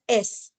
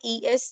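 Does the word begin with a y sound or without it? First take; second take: without y; with y. First: It begins without a y sound. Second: It begins with a clear y sound. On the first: The speaker calls it wrong. "they will be saying it as S, just a single letter S" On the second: The speaker calls it right. "rather than saying yes"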